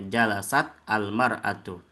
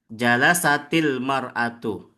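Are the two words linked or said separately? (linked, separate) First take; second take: separate; linked. First: The words are said apart with no added sound. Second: The words run together with an added i sound. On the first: "kalau tidak disambung ya bacanya sendiri-sendiri ya" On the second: "Kalau disambung sukunnya jadi kasroh kalau disambung ya"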